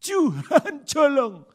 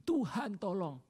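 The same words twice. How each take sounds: First: Loud, slow, wailing cry for help; desperate cry. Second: Said in the usual way. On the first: Shown as a demonstration. Preacher showing a big-problem prayer, loud slow wail. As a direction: stretch it out and wail to God. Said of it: "masalah besar ngomongnya apa". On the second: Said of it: "ngomongnya begini".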